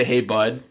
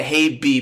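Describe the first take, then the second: First: "Hey, bud." with the full word bud; intended reading. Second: Said in the usual way. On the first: Shown as a demonstration. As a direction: say bud, not the letter B. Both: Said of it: "she was trying to say".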